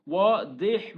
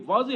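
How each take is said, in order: First: واضح as "waa-deh", slow, with a d-like ض; Arabic dad sound. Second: Said in the usual way. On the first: Shown as a demonstration. Teacher correcting the Urdu reading, واضح said slowly as Arabic "waadeh". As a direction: stretch واضح and give ض a heavy d sound. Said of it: "واضح بولنا ہے". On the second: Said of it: "یہ اردو کا لفظ ہے یار".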